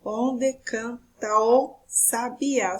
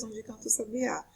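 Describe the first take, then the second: First: "Onde canta o sabiá" in slow, separate syllables. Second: Said in the usual way. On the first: Shown as a demonstration. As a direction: scan the verse slowly, one syllable at a time. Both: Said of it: "olha só o segundo verso".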